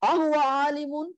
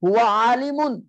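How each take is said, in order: First: "A huwa alimun" pitched high, held up to the end; question. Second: "huwa alimun" loud and quick, falling at the end; statement. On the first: Teacher turning the statement into a question, high "A huwa alimun". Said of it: "change your jumlatul ismiya into a questioning". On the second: Teacher giving the example sentence, "huwa alimun" as a falling statement. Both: Shown as a demonstration.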